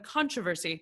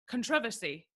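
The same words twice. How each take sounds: First: The stress falls on a different syllable. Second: The stress follows the pattern used in England. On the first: This is how the speaker says it. "instead of" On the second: This is how someone from England says it. "she's from England, so she called it a controversy"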